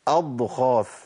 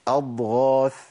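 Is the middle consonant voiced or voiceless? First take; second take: voiceless; voiced. First: The gh sound turns into a voiceless kh. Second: The gh sound is fully voiced. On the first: The speaker calls it wrong. "ما ينفعش أقول أضغاث" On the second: The speaker calls it right. "هي إيه؟"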